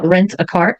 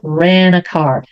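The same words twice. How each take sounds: First: The T at the end of rent is pronounced. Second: The T at the end of rent is dropped. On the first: This is used to be clearly understood, like on the phone. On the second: This is the casual everyday way of saying it.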